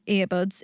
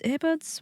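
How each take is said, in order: First: "earbuds" said flatly with a falling tune; plain statement. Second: "Earbuds?" asked higher, with a rising tune; "Earbuds?" checked uncertainly, rising at the end; doubtful question. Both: Real, not acted. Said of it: "What would you call them?".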